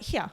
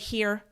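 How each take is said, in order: First: It ends without an r sound. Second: It ends with a clear r sound. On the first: "Australian like here" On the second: "So now I have to say here"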